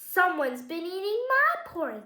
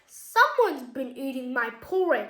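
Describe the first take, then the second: First: The voice is of medium size and pitch. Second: The voice is big, deep and booming. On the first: The middle-sized bear is speaking. "in a medium-sized voice" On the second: The largest bear is speaking. "in a big booming voice"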